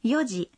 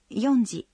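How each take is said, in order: First: It is said with no 'n' before 'ji'. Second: It is said with an 'n' before 'ji'. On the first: The speaker calls it right. "Таким же образом мы говорим «четыре часа» – «йоджи»" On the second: The speaker calls it wrong. "но не «йонджи»"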